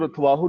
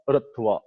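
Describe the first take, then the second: First: ਰਥਵਾਹੂ read with a long added -hoo ending; wrong reading rathvahu. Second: ਰਥਵਾ ending cleanly in -vaa, no -hoo; correct reading rathva. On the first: Preacher shows congregation the wrong reading ਰਥਵਾਹੂ with -hoo ending. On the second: Preacher corrects congregation: ਰਥਵਾ said ending on plain -vaa. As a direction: say ਰਥਵਾ short, stopping on the open -vaa. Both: Shown as a demonstration. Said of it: "ਇਹਨੂੰ ਰਥਵਾਹੂ ਨਹੀਂ ਪੜਨਾ".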